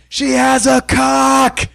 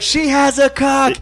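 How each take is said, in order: First: Drawn-out, higher shouted blurt; a heckler's slow, raised blurt; mock shout. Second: Slow, high blurted call; retelling the heckle, drawn out and high; mock shout. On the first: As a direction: yell it out slowly across the room. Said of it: "And I'm like". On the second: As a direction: call it out slowly. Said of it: "and I'm like".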